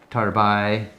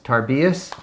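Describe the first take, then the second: First: The word ends without any S sound. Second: The word ends with an audible S sound.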